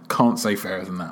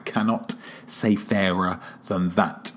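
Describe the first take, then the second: First: The phrase is said casually with a contraction. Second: Every word is clearly and carefully enunciated.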